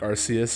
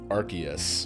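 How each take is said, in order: First: The first syllable sounds like 'arse'. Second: The first syllable does not sound like 'arse'. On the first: This is the pronunciation the speaker prefers. "I like Arceus, even though it sounds silly now that I hear it" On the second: This is the changed British English pronunciation. "the English English pronunciation"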